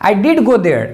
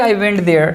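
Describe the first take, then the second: First: "did" stressed, then a falling finish; emphatic "did". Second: Said in the usual way. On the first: Shown as a demonstration. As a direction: hit "did" firmly and let the rest drop. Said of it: "whenever you want to emphasize your sentence". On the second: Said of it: "Normal sentence is".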